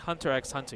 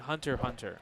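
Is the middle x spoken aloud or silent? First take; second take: spoken; silent. First: The middle x is spoken aloud. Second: The middle x is left silent. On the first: The speaker calls it wrong. "you don't say Hunter x Hunter" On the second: The speaker calls it right. "You say Hunter x Hunter"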